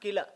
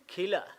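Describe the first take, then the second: First: The first k sound has no puff of air. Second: The first k sound has a puff of air. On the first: The speaker calls it wrong. "Not Kila" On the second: The speaker calls it right. "In Tamil, Ka and Kha are almost same"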